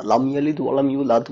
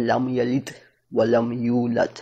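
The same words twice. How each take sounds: First: লাম ইয়ালিদ ওয়া লাম ইউলাদ in one run, ordinary Bangla দ; Bangla-style pronunciation. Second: লাম ইয়ালিদ, ওয়া লাম ইউলাদ spaced out, tongue held up on each final দ; আরবি accent. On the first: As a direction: correct words, no Arabic accent on ইউলাদ. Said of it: "কিন্তু accent আসে নাই". (আরবি টান ছাড়া Bangla ধাঁচে ইউলাদ) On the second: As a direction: keep the tongue on the palate to close ইয়ালিদ and ইউলাদ. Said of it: "জিহ্বাটা উপরে লাগিয়ে রেখে". (জিভ তালুতে লাগিয়ে থেমে থেমে আরবি ধাঁচে ইউলাদ) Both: Shown as a demonstration.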